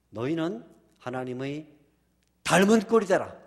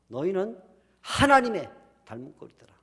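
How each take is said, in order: First: The stress falls on 닮은 꼴. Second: The stress falls on 하나님의. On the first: The likeness itself is what matters. The speaker calls it wrong. "이렇게 주면 안 돼요" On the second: The one being imitated is what matters. The speaker calls it right. "이렇게 찍었을 거예요"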